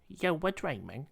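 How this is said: It is said in a gentle, put-on accented voice.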